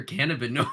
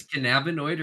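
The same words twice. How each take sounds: First: Cannabinoid as CAN-uh-bin-oid; stress on CAN. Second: Cannabinoid as kuh-NAB-ih-noid; stress on NAB. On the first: Unsure which is proper, cannabinoid stressed CAN-uh-bin-oid. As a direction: hit the first syllable of cannabinoid, CAN. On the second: Unsure which is proper, cannabinoid stressed kuh-NAB-ih-noid. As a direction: hit the second syllable of cannabinoid, NAB. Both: Shown as a demonstration. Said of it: "don't know if it's cannabinoid or cannabinoid".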